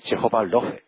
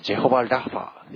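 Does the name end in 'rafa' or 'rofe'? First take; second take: rofe; rafa. First: The name ends with the sounds 'rofe'. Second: The name ends with the sounds 'rafa'. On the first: "そのうちの一つ目がジェホバロフェ" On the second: "英語の発音で言えばジェホバラファー"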